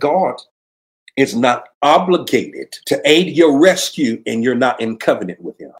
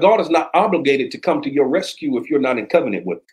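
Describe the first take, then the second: First: It is said more loudly. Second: It is said at normal volume.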